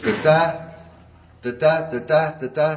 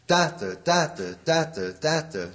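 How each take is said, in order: First: "da-da" with the second syllable pitched higher; da-DA, da-DA, rising on each pair; iambic beat demo. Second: "da-da" falling, first syllable strong; DA-da, DA-da, dropping on the second; trochaic beat demo. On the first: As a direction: chant iambs, leaning up on the second beat. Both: Shown as a demonstration.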